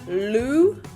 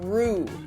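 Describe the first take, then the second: First: The tongue flicks hard for a strong L. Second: The consonant is rolled like an R. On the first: "Don't flick your tongue too hard, so we're not going lu" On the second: "don't roll it like an R"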